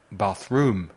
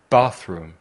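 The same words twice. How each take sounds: First: Bath-ROOM, weight moved onto room; stress on second syllable. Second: BATH-room, first syllable punched louder; stress on first syllable. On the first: Teacher showing learners the mistake, bath-ROOM stressed on the second syllable. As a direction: keep bath light and lean on ROOM in bathroom. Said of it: "y no en la segunda". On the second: Teacher modelling the right stress for learners, BATH-room stressed on the first syllable. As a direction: hit BATH in bathroom and let room drop away. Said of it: "poner el énfasis en la primera sílaba". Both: Shown as a demonstration.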